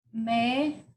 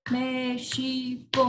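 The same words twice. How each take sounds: First: Separated syllables. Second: MÉXICO slow, three even joined beats; counting out syllables. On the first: Teacher writing an example word, México in widely spaced syllables. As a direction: dictate México one isolated syllable at a time. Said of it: "número de sílabas que a gente separa". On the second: Teacher recalling first-grade counting, México in slow even syllables. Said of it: "a professora fazia contar". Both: Shown as a demonstration.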